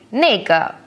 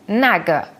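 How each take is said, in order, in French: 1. La première voyelle se prononce comme 'ay'. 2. La première voyelle se prononce comme 'ah'. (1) "nega est plus courant" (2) "ou naga"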